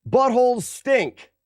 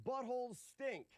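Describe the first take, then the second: First: High, slow silly voice. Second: Soft, high silly repeat; quiet. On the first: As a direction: say it slow and goofy. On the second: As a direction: say it again under your breath. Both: Pretend. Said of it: "Ready? Watch this".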